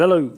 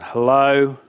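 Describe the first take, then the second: First: Bright, quick, higher hello; cheerful greeting. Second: Drawn-out, annoyed hello; curt annoyance. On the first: Happy speaker answering the car phone, cheerful. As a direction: answer the phone happily, pitched up. Cheerful before the bad news. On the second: Angry speaker answering after being dropped, annoyed. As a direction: answer the phone still cross, holding the word. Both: Acted.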